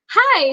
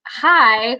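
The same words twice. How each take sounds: First: High nervous little greeting; high-pitched starstruck squeak. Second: Said in the usual way. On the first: Retold or imitated. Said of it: "my voice went up, like, five octaves". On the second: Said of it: "and he was like".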